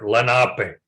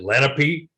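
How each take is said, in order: First: It uses the traditional language pronunciation. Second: It uses the common eastern pronunciation. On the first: This is how the people say it in their own language. "in the language, the traditional language, we are Lenape" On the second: This is how many places back east say it. "there are many places they pronounce it Lenape"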